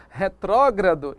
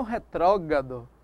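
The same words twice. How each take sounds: First: "retrógrado" with both R clusters, re-TRÓ-gra-do; careful, slow "retrógrado" with every R; correct pronunciation. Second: "retrógrado" losing its second R, re-TRÓ-ga-do; slowly shown slip, "retrógrado" said with GA for GRA; wrong pronunciation. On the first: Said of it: "Eu devo colocar". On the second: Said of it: "e não retrógrado". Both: Shown as a demonstration.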